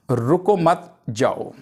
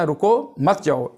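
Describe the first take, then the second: First: "रुको मत" together, a break, then "जाओ"; group रुको with मत, pause before जाओ; pause after मत. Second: "रुको", a break, then "मत जाओ" together; pause after रुको. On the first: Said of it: "इसके बाद हम कॉमा लगाते हैं". ("रुको मत" के बाद ठहराव, फिर "जाओ") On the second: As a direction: slowly, split रुको off from मत जाओ. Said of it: "रुको के बाद कॉमा आ गया है". ("रुको" के बाद ठहराव, फिर "मत जाओ") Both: Shown as a demonstration.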